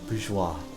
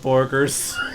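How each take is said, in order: First: The word ends in a soft 'zh-wah' sound. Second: The word ends in a hard 'jers' sound. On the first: The speaker calls it right. "thank you, bourgeois" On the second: The speaker calls it wrong. "I was about to pronounce it Borgers"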